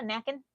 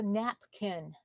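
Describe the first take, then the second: First: "knacking" for napkin, the p dropped; childhood pronunciation. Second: "napkin" slowly, with a clear p; careful, slow "napkin"; proper pronunciation. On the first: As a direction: say "knacking" as "nack-in". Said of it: "Another word that we had growing up". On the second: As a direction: say "napkin" as "nap-kin", both syllables distinct. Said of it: "Oh my gosh, it's a napkin". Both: Shown as a demonstration.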